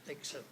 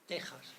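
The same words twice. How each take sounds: First: The x is said as a 'ks' sound. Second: The x is said as a throaty 'j' sound. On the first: The speaker calls it wrong. "pronunciado Texas por los malos, los malos locutores" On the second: The speaker calls it right. "que en realidad era el sonido J"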